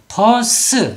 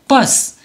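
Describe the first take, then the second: First: The word is said with two syllables. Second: The word is said with one syllable. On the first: The speaker calls it wrong. "버스 이렇게 되면 이파장이 되고요" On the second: The speaker calls it right. "모두 다 이름절로 소리를 내야 됩니다"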